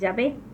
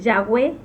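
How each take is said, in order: First: The middle consonant is a 'v' sound. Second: The middle consonant is a 'w' sound. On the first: This follows the modern Hebrew letter sound. The speaker calls it wrong. "y no eh, Yahvé" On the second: This follows the ancient Hebrew pronunciation. The speaker calls it right. "la pronunciación correcta sería eh, Yahweh"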